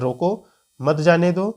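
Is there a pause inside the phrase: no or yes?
yes. It is read with a comma pause inside. "अल्प विराम का को ध्यान में रखकर पढ़ेंगे"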